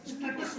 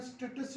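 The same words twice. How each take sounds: First: स्टेटस as the wrong version; mock the wrong स्टेटस; wrong pronunciation. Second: स्टेटस as the teacher models it; correct pronunciation. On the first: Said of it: "नहीं होता". (गलत उच्चारण स्टेटस) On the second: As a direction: say स्टेटस the right way. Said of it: "स्टेटस नहीं होता". (सही उच्चारण स्टेटस) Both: Shown as a demonstration.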